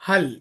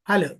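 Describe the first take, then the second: First: The final L is held with no extra vowel. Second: An extra vowel sound follows the final L. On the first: The speaker calls it right. "ये extra sound आना नहीं है, बस ज्वाइन करो।" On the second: The speaker calls it wrong. "जबान ऊपर लगा के फौरी नीचे ले लेते। ... तो ये एक्स्ट्रा साउंड निकल रहा"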